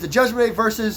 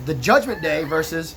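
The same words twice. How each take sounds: First: The phrase is spoken very quickly. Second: The phrase is spoken more slowly. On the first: The speaker calls it wrong. "I said all that way too fast" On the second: The speaker calls it right. "Let's back it up. Bear with me"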